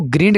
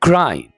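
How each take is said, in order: First: The vowel sounds short, like in 'bit'. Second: The vowel sounds long, like in 'bite'. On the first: The speaker calls it wrong. "इसको ग्रिंड नहीं बोलना" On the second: The speaker calls it right.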